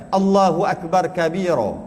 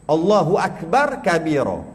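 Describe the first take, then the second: No difference in how they are said.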